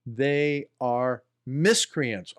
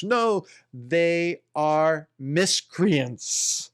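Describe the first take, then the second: First: Said in the usual way. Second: Slow, with a throat clear caught in the words; throaty take. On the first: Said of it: "Let me say that again". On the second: Shown as a demonstration. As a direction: say it slowly, throat still rough.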